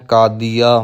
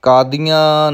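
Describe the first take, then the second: First: ਕਾਦੀਆ with a clean oral final aa; no nasal ending. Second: ਕਾਦੀਆਂ with the final aa nasalised; nasal ending. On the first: Teacher models the word for learners, un-nasalised ਕਾਦੀਆ. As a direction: end ਕਾਦੀਆ without any nasalisation. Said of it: "ਬਿਨਾਂ ਬਿੰਦੀ ਤੋਂ ਉਚਾਰਨ ਕਰਨਾ". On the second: Teacher shows learners the mistake, nasal ending on ਕਾਦੀਆਂ. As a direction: let the end of ਕਾਦੀਆਂ go through the nose. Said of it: "ਕਾਦੀਆਂ ਨਹੀਂ ਕਹਿਣਾ". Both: Shown as a demonstration.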